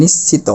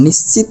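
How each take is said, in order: First: নিশ্চিত as "nishchito"; correct final o. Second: নিশ্চিত stopped at the t, "nishchit"; wrong pronunciation. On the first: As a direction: end নিশ্চিত on a clear o after the t. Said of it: "উচ্চারণ করতে হবে নিশ্চিত". (নিশ্চিত শেষে ও-কার দিয়ে) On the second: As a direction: say নিশ্চিত with no final vowel. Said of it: "নিশ্চিত বলতে পারবো না". (নিশ্চিত শেষে হসন্ত ত দিয়ে, ভুল উচ্চারণে) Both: Shown as a demonstration.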